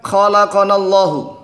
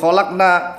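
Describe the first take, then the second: First: The q sound is followed by a vowel. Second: The q sound is followed by no vowel. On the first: The speaker calls it right. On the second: The speaker calls it wrong.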